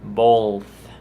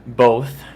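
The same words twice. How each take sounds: First: "Both" with an L before the th; added L. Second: Said in the usual way. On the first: Retold or imitated. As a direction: say "Both" as bolth. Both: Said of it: "pronounces it with an L sometimes".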